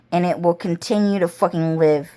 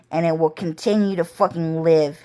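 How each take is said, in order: Both takes have the same delivery.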